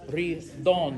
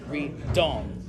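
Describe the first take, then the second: First: The consonants are light and not over-enunciated. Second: The consonants are strongly over-enunciated. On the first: The speaker calls it right. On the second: The speaker calls it wrong. "not ridon"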